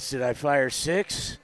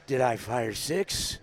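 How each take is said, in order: First: Lightly voiced Dirty Harry; Clint Eastwood impression. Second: Low, slow gravelly-free Dirty Harry voice; lightly voiced Dirty Harry, slow; Clint Eastwood impression. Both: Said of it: "since I have a cold, I can do it".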